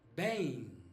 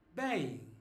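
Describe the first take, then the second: The two takes are said the same way.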